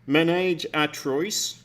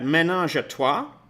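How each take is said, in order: First: It is said with an English pronunciation. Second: It is said with a French pronunciation.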